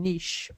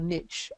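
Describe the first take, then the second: First: It is pronounced in a non-American way. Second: It is pronounced the American way.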